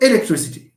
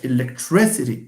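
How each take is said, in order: First: The stress is not on the third-to-last syllable. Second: The stress is on the third-to-last syllable. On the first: The speaker calls it wrong. "It's not electricity. That's French" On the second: The speaker calls it right. "The one that we stress, electricity"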